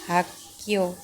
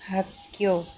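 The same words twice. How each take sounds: No difference in how they are said.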